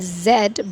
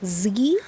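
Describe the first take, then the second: First: The letter is said the British way. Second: The letter is said the American way. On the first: "British English" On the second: "as in American English"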